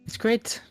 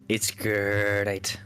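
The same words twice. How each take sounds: First: It is said in a normal voice. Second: It is said in a Tony the Tiger voice.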